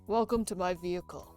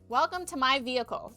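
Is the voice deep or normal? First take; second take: deep; normal. First: It is said in a deep put-on voice. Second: It is said in a normal speaking voice. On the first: The speaker calls it right. "he has a deep voice" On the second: The speaker calls it wrong. "I keep forgetting this"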